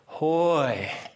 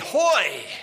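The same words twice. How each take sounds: First: It is said quietly and slowly. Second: It is said quickly and loudly.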